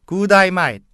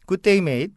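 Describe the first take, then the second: First: It is in a broad Australian English accent. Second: It is in a standard textbook English accent.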